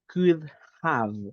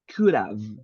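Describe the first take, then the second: First: The two words are said separately with a pause. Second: The two words are joined into one sound. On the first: The speaker calls it wrong. "if I read the words individually" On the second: The speaker calls it right. "it is good to join the sounds"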